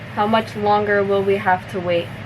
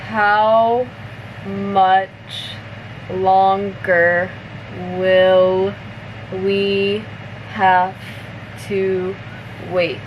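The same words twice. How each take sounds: First: The sentence is spoken at natural speed. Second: The sentence is spoken slowly. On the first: "one more time at normal speed" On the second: "I'll say it slower first"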